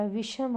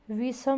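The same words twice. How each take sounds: First: Said in the usual way. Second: विषम said as "visam" with a plain s; wrong sibilant. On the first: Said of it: "विषम होता है". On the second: Shown as a demonstration. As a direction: put an s for the sh in विषम. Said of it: "विषम नहीं होता". (विषम को "विसम" बोलते हुए)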